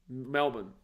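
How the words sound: It is said with an Australian accent.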